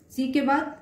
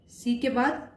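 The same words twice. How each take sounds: The two takes are said the same way.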